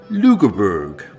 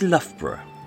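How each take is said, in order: First: The name ends with a hard 'berg' sound. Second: The name ends with a soft 'bruh' sound. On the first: This is how American tourists say it. The speaker calls it wrong. "places that they deliberately mispronounce" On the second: This is how English speakers say it. The speaker calls it right. "for those of us who actually speak English, is"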